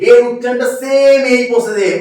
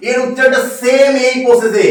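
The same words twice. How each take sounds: The two takes are said the same way.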